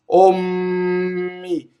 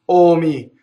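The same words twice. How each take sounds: First: The M sound is held slightly longer. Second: The M sound is short and quick. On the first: "double M" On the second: "single M"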